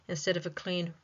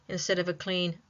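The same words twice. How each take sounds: The two takes are said the same way.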